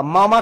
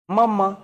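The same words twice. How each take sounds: First: Said in the usual way. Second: মাম্মা with a long, doubled m; mam-ma for মাম্মা; doubled consonant. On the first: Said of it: "কি হয়ে যাবে?". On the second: Shown as a demonstration. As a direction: hum on the middle m of মাম্মা. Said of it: "মামা কি হয়ে যাবে?".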